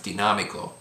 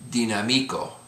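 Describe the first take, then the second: First: The stress is on the third-last syllable. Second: The stress is on the second-last syllable. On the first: The speaker calls it right. "but because the accent, it's dinámico" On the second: The speaker calls it wrong. "the accent would be on the second to the last syllable"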